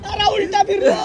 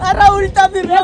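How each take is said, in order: First: Higher yell, stress on उलटा; startled yell. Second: Half laughing, half crying, stress on अरे; laugh-scream through it. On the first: Riding upside down, yelling at friends in shock. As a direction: shout as you go upside down. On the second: Upside down again, laughing and crying to the camera. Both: Real, not acted.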